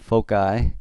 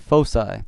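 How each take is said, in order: First: The c is not said as an s. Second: The c is said as an s. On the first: The speaker calls it wrong. "It's not foci" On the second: The speaker calls it right. "So that C has an S sound"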